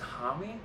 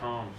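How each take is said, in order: First: It has two syllables, like 'hammy'. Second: It has one syllable, like 'home'. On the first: "Is it Hami?" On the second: "I've been saying like Josh Home"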